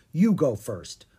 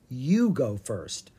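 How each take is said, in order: First: "you" stressed in "you go first", falling after. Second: "you" drawn out slowly in "you go first"; slow stress on YOU. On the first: Owen sends Ella ahead, stressing "you". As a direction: push "you" at normal pace, handing over the job. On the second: Ella throws it back at Owen, slowly stressing "you". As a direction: stretch and lean on "you", turning it back. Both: Acted.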